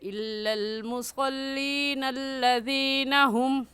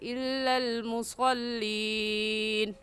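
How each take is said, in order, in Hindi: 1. मुसल्लीन सीधे अगले शब्दों से मिल जाता है। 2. मुसल्लीन के बाद तिलावत रुक जाती है। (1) "मिलाकर पढ़ना भी दुरुस्त है, ऐसे पढ़ेंगे" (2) "वक़फ़ करके पढ़ना भी दुरुस्त है, यानी ऐसे कहे"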